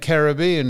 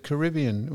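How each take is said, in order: First: "Caribbean" as ka-ruh-BEE-un; stressed third syllable. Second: "Caribbean" as kuh-RIB-ee-un; stressed second syllable. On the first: Co-host lists pronunciations, "Caribbean" as ka-ruh-BEE-un. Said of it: "Caribbean instead of Caribbean". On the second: Co-host gives the other version, "Caribbean" as kuh-RIB-ee-un. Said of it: "instead of Caribbean". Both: Shown as a demonstration.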